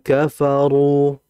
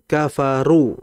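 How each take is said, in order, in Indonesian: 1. Bunyi r-nya tebal. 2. Bunyi r-nya tipis.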